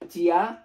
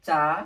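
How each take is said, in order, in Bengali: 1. এটি দুই অক্ষরে বলা হয়, chi-ya। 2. এটি এক অক্ষরে বলা হয়, cha। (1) "হওয়ার কথা ছিল কি ছন্দ অনুসারে" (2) "প্রোনাউন্সিয়েশনটা হবে চা"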